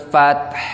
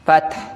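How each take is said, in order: First: The word ends with an audible breathy h. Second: The word ends without any final breathy h. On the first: The speaker calls it right. "Ada hembusan napas" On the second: The speaker calls it wrong. "kebanyakan orang menghilangkan huruf H-nya ini"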